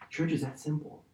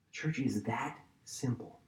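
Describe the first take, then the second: First: Soft emphasis. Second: Softer, slower repeat. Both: Shown as a demonstration. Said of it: "guys, listen".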